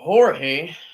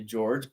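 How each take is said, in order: First: The name is said the Spanish way, 'hor-hay'. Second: The name is said the English way, 'jorj'. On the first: This is how some listeners say the name. "some of you may pronounce it that way" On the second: This is how the speaker says the name. "I say George"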